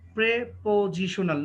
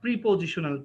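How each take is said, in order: First: The first vowel sounds like 'eh'. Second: The first vowel sounds like 'ee'. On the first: The speaker calls it right. "এটা হচ্ছে আ প্রেপোজিশনাল" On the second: The speaker calls it wrong. "Not প্রিপোজিশনাল"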